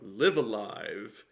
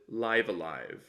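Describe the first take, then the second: First: The first word does not rhyme with dive. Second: The first word rhymes with dive. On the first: The speaker calls it wrong. "Sam calls the game Live Alive" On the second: The speaker calls it right. "so rhymes with dive a dive"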